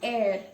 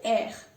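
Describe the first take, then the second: First: The final R is a plain English-like sound. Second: The final R is rasped deep in the throat. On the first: The speaker calls it wrong. "Now it's not air" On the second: The speaker calls it right. "Did you hear it? ... pronounce the letter from the epiglottis"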